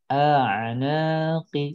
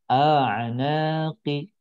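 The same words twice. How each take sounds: No difference in how they are said.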